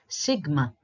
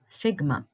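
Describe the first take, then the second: Both takes have the same delivery.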